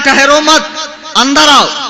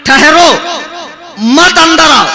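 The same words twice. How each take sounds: First: There is a pause right after मत. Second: There is a pause right after ठहरो.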